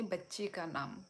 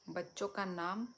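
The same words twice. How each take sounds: First: बच्ची stressed with a falling tune; corrective stress. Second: Said in the usual way. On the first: Shown as a demonstration. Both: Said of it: "बच्चों का नाम नहीं".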